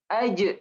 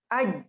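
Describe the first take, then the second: First: The final j is released with a short echoing bounce. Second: The final j stops without any echoing bounce. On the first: "ditambahin namanya sifat qalqalah, maka dia dipantulkan" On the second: "Awalnya j itu tanpa qalqalah"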